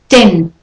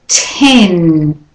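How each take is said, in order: First: The t is released without a puff of air. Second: The t is released with a puff of air. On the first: The speaker calls it wrong. "stopped or unaspirated" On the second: The speaker calls it right. "Aspirated, like it should be"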